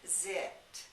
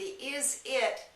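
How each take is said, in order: First: The words merge into one short syllable. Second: Both words are said separately and in full.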